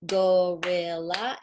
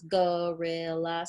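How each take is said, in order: First: Gorilla said slowly and a bit louder as a whole word; slow showing word. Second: Gorilla split into three beats, go-ril-la; clapped syllables. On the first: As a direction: hold up the word gorilla and stretch it out. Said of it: "So I would show it". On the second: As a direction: clap out gorilla one syllable at a time. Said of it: "and show the sounds". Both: Shown as a demonstration.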